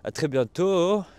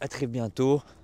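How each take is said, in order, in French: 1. C'est dit avec un accent forcé. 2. C'est dit avec la voix naturelle du locuteur.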